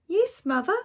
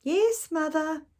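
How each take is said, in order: First: Put-on high, eager little girl. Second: Put-on high, drawn-out child's reply; slow little girl. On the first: Girl answering her mother, high and bright. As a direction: chirp it like an obedient child. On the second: Girl answering her mother again, high and slow. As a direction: stretch it out like a patient child.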